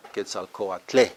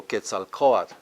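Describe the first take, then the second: First: Quetzalcoatle as a call to someone, final TLE stressed; stress on last syllable. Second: Quetzalcoatl, weight on CO, the second-last syllable; stress second-last syllable. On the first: Teacher showing how to address someone, stress on last syllable. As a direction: hit the closing TLE of Quetzalcoatle. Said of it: "That's when you talk to someone". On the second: Teacher showing students the usual stress rule, stress second-last syllable. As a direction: say Quetzalcoatl slowly, leaning on CO. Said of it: "is on the second from the last syllable".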